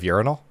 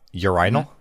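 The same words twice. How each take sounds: First: It is pronounced the American way. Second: It is pronounced the European way. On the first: "instead of" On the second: "somebody um, from just Europe in general pronounce"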